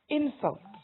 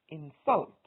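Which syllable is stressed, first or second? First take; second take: first; second. First: The stress is on the first syllable. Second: The stress is on the second syllable. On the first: It is used as a noun. "is a noun" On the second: It is used as a verb. "is a verb"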